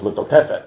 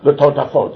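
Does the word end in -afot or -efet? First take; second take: -efet; -afot. First: The word ends with the sounds -efet. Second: The word ends with the sounds -afot. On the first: This reads the word exactly as it is spelled. "he says L'totefet, to make sure that there's no vav there" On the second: This is the usual reading of the word. "he doesn't say"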